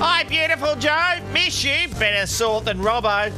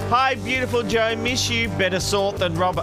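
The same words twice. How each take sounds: First: It is read in an imitated character voice. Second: It is read in the speaker's ordinary voice. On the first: "the Carlotta voice" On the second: "I didn't do the Carlotta voice"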